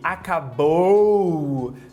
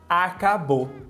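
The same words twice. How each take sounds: First: The last syllable ends in a full two-part diphthong. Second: The last syllable ends in a single plain vowel. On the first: "Em vez de"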